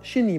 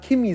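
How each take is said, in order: First: The word begins with a soft ch sound. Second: The word begins with a hard K sound. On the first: The speaker calls it right. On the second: The speaker calls it wrong. "wenn jemand Kimi sagt"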